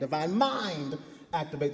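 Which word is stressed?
mind. The word mind is stressed.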